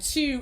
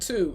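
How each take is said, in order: First: The word sounds like chew, Baltimore style. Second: The word sounds like plain standard two. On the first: "Baltimore be like chew" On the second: "instead of two"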